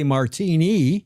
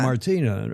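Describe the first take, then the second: First: The name ends with an 'ee' vowel. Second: The name ends with an 'ah' vowel. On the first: The speaker calls it wrong. "But you wouldn't say Martini" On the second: The speaker calls it right. "That's how you would say it in Portuguese or French"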